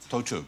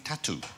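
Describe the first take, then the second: First: It is said with the French vowels. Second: It sounds like the English word tattoo. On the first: The speaker calls it right. "now we know it's Tautou" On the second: The speaker calls it wrong. "I have always been saying Audrey Tattoo"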